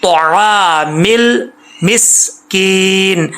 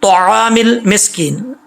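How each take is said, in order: First: Very slow طعام المسکین, heavy ta; correct recitation. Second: طعام المسکین slow and heavy, ta raised; correct recitation. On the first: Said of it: "میم کے بعد سین ہے،". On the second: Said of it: "آگے چلتے ہیں،". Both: Shown as a demonstration.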